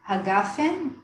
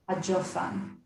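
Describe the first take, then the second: First: It has a hard g and an e vowel. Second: It has a j sound and an o vowel.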